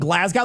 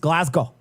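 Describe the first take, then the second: First: It is said with an American pronunciation. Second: It is said with a Scottish pronunciation. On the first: The speaker calls it wrong. "I was saying Glasgow" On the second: The speaker calls it right. "They're like it's Glasgow"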